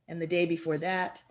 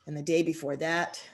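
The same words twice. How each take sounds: The two takes are said the same way.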